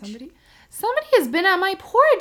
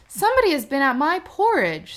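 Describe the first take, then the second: First: It is said in a small, tiny voice. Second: It is said in a middling, average voice. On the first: A very small character is speaking. "said the little small wee bear in his small wee voice" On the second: A middle-sized character is speaking. "said the middle bear in his middle voice"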